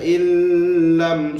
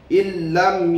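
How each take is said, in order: First: The nun is held with a nasal hum. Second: The nun merges straight into lam, no hum. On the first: The speaker calls it wrong. "tak baca illam, salah" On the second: The speaker calls it right. "kita baca tak dengung, terus masukkan dalam huruf lam itu"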